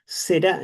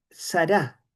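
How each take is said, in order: First: "Será" with an E in the first syllable; primera vocal como E. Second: "sará" with an A in the first syllable; primera vocal como A. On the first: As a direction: say "Será", first vowel E rather than A. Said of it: "es con E". ("Será", con E en la primera sílaba) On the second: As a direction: say "sará", first vowel open as A. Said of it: "Será en realidad, es con E". ("sará", con A en la primera sílaba) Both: Shown as a demonstration.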